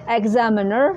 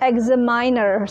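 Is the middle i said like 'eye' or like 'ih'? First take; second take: ih; eye. First: The middle i sounds like short 'ih'. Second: The middle i sounds like 'eye'. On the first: The speaker calls it right. "pelafalannya yang benar" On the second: The speaker calls it wrong. "Selama ini saya nyebutnya"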